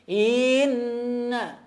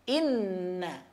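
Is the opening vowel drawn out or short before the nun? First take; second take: drawn out; short. First: The opening vowel is dragged out before the nun. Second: The vowel goes straight into a long nasal nun. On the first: The speaker calls it wrong. "jangan diseret huruf hamzahnya seperti inna" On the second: The speaker calls it right. "Langsung ke nun dan nunnya ditahan, dipanjangkan, didengungkan"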